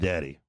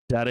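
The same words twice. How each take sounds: First: It is said in a low, flirtatious tone. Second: It is said in a light, childlike tone.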